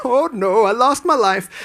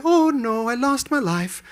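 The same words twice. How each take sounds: First: His own take, raised but less sing-song; a lighter, louder copy of the deer voice; roadkill narration. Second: High, sing-song dying deer voice; narrating roadkill. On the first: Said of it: "Now I do it too". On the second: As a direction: voice the dead deer with storybook pathos. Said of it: "Are you narrating roadkill". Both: Retold or imitated.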